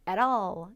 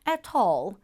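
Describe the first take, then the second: First: It is said with a North American accent. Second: It is said with a British accent. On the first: "원어민들은 이 부분을 at all, at all 이렇게 발음을 합니다. 북미권 발음의 특성 중에 하나예요" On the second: "영국식으로는 at all"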